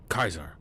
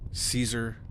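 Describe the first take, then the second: First: The name begins with a hard K sound. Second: The name begins with a soft S sound. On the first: "the C was pronounced as a hard C" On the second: "instead of Caesar"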